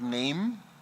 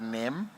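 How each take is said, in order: First: It is said like the ordinary word 'name'. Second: It is said with a short vowel, like 'hem'. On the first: The speaker calls it wrong. "not name" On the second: The speaker calls it right. "but NEM"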